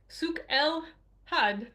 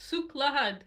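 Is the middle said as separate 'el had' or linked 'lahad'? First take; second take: separate; linked. First: The middle is said as separate 'el had'. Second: The middle is said as linked 'lahad'. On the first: The speaker calls it wrong. "in my English brain, it looks like Souk El Had" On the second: The speaker calls it right. "but the pronunciation is Souk Lahad"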